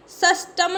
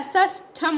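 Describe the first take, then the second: First: सष्टम with unaspirated 'ta', sash-tam; no breath on the ट of सष्टम; wrong pronunciation. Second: सष्टम said slowly with aspirated 'tha', sash-tham; correct pronunciation. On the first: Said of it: "नहीं होता है". (सष्टम में 'ट' बिना हवा के बोलें) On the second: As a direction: puff the ट of सष्टम into ठ. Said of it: "ठा बनता है". (सष्टम में 'ट' की जगह 'ठ' बोलें) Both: Shown as a demonstration.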